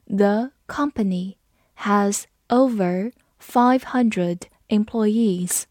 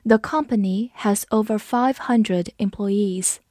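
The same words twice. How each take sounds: First: Slow, word-group by word-group with pauses; slow read-along. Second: Said in the usual way. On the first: Shown as a demonstration. Teacher leading learners through the example sentence, slow read-along. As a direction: read it slowly and carefully for repeating. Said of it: "好，跟着我慢读一遍". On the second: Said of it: "跟着我慢读一遍".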